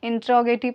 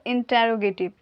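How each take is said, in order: First: "interrogative" with a squeezed "intra" middle; alternative pronunciation. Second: "interrogative" with a full "ta-ro" middle; preferred pronunciation. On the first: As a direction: run "interrogative" together, dropping the "ter-ro" syllables. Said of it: "तो interrogative पढ़िएगा, वो भी आएगा". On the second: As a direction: give "interrogative" every syllable, slowly. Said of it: "पर interrogative". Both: Shown as a demonstration.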